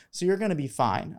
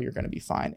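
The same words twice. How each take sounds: First: Said in the usual way. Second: Soft whispered repeat. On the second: Real, not acted. Reassuring anxious applicants, repeats it in a soft whisper. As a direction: drop to a near-whisper, reassuring.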